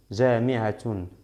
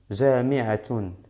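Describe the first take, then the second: First: The word ends with a full 'tun' syllable. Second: The same.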